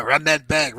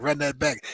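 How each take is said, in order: First: Mocking replay call. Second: Said in the usual way. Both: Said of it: "putting their finger in the air".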